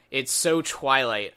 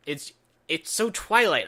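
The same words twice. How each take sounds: First: "so" drawn out slowly and leaned on; slow, heavy stress on "so" in "it's so Twilight"; dragging out "so" to mock the movie. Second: "Twilight" said in a put-on swooning voice, the word "so" left light; mock-dreamy voice on "it's so Twilight"; lampooning the sappy scene in a put-on voice. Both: Shown as a demonstration. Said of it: "I don't have any other way to describe it".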